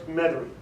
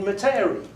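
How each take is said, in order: First: It is pronounced the way locals say it. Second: It is pronounced the way an outsider would. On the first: The speaker is from the area. The speaker calls it right. "No, sir, it's Metairie" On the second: The speaker is not from the area. The speaker calls it wrong. "done by a, somebody from out of state"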